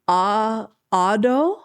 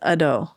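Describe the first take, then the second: First: The first vowel is long. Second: The first vowel is short. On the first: The speaker calls it wrong. "I think it's" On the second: The speaker calls it right. "it could be short A"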